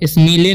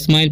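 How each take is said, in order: First: The vowel is a long ee sound. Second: The vowel is an eye sound. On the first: The speaker calls it wrong. "स्मीले नहीं पढ़ना है" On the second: The speaker calls it right. "स्माइल पढ़ना है"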